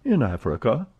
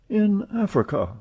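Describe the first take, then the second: First: Said in the usual way. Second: High, wondering repeat; amazed echo. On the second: Acted. Passepartout echoing Fix in amazement, high. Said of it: "repeated Passepartout".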